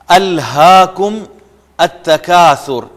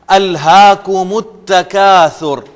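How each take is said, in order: First: The two words are read separately, unlinked. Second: The two words are linked into one flow.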